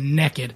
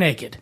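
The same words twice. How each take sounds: First: It is said in a Southern US accent. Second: It is said in a general, standard accent.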